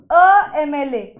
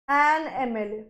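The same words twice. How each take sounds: First: Teacher presents the test phrase; slow example. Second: Much softer, lower "an एम L ए"; soft confirmation. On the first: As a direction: spell out "अ एम L ए" slowly. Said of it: "क्या ये अ एम L ए ठीक है?". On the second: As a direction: quietly settle the correct answer. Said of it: "इसीलिए ये होगा an एम L ए". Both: Shown as a demonstration.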